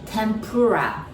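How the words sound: It is said with an English accent. "in English, we said tempura"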